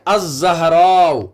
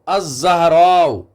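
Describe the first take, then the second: No difference in how they are said.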